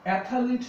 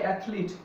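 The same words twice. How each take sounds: First: অ্যাথলিট as three syllables, "ATH-a-leet"; mispronunciation. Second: অ্যাথলিট as two syllables, "ATH-leet"; correct pronunciation. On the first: Teacher showing the form to avoid, mispronunciation. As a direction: add a vowel between th and l in অ্যাথলিট. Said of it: "অ্যাথলিট নয়". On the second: Teacher showing how the word will be said, correct pronunciation. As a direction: run th straight into l in অ্যাথলিট. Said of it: "এটার উচ্চারণ হবে". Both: Shown as a demonstration.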